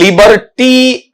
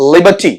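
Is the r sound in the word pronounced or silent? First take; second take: pronounced; silent. First: The r sound is clearly pronounced. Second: The r sound is silent. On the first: The speaker calls it wrong. "ऐसा नहीं" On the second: The speaker calls it right. "आर इसमें totally क्या है, silent"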